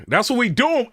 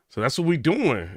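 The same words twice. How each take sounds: First: Loud, high excited repeat; excited call to the fans; hyped up. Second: Said in the usual way. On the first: Real, not acted. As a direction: pitch jumps up, rallying the viewers.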